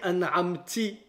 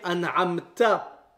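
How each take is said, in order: First: The word ends with an 'i' vowel. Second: The word ends with an 'a' vowel. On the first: The speaker calls it wrong. "je vais dire an'amti" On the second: The speaker calls it right. "avec le son A sur le ta"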